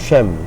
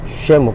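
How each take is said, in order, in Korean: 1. 빨리 발음하면 한 음절로 발음합니다. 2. 천천히 발음하면 두 음절로 발음합니다.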